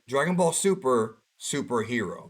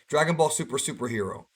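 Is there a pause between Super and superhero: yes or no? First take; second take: yes; no. First: There is a pause after Super. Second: The words run together with no pause. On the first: It names the series and then the subtitle. The speaker calls it right. "That's how you're supposed to say it" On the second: It sounds like a repeated word. The speaker calls it wrong. "If you don't pause at the end of Dragon Ball Super, it sounds like you're misspoken"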